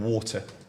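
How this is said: It is said with a British accent.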